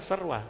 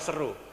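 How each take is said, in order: First: The word ends with a 'rwa' sound. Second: The word ends with a plain 'ru' sound. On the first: The speaker calls it right. "Harusnya serwa" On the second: The speaker calls it wrong. "dibaca seru"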